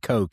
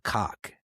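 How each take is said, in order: First: It ends in a plain English k sound. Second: It ends in a throaty German ch sound. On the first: "You might say Koch here in the States" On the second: "that's uh, the German pronunciation of that last name"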